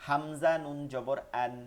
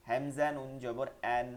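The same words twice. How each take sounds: The two takes are said the same way.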